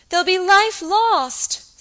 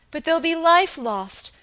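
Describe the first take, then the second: First: Slow, high, loud sobbing wail; sobbing distractedly. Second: Higher, louder distressed plea; distraught. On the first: Frightened girl fearing deaths, sobbing wail. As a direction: break down on the repeat. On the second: Acted. Frightened girl fearing deaths, distressed. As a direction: let the fear well up. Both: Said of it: "sobbed the girl distractedly".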